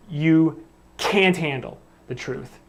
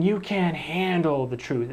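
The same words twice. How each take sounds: First: "can't handle" slow and weighted as one unit; stress on can't handle. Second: "handle" carries the emphasis in the line; stress on handle. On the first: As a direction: pause after "You", then lean on "can't handle". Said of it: "it's can't handle". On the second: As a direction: lean on "handle", not "can't". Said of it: "it sounds like handle". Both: Shown as a demonstration.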